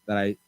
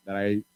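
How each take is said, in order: Both takes have the same delivery.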